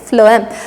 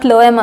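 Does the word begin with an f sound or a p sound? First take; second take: f sound; p sound. First: The word begins with an f sound. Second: The word begins with a p sound. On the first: The speaker calls it right. "pH should be pronounced as F" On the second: The speaker calls it wrong. "It's not phloem or something"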